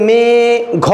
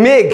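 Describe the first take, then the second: First: মে-, ঘ in two drawn-out pieces; মে-, ঘ broken apart slowly as a wrong example; wrongly split word. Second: মেঘ as one closed syllable; মেঘ run together, ending straight on the gh. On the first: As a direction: stretch মে-, stop, then a separate ঘ. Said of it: "এরকম ভাগ কিন্তু করা যায় না". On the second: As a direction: say মেঘ in a single unbroken beat. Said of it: "একবারে উচ্চারণ করি". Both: Shown as a demonstration.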